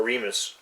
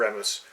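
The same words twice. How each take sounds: First: Remus pronounced REE-mus; first vowel of "Remus" long, like REE; long-e pronunciation. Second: Remus pronounced REM-us; first vowel of "Remus" short, like REM; short-e pronunciation. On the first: Co-host unsure of the god's name, Remus said REE-mus. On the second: Co-host on whom villains worship, Remus said REM-us. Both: Shown as a demonstration. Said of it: "Is it Remus".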